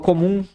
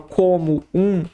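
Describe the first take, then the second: First: The two words run together without a break. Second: The two words are said separately, apart. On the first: The speaker calls it right. "Eu falo comum" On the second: The speaker calls it wrong. "eu não dou uma pausa como eu falo"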